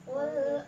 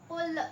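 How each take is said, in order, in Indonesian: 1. L di akhir ditahan diam, tanpa dipantulkan. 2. L di akhir dipantulkan dengan lepasan yang bergema.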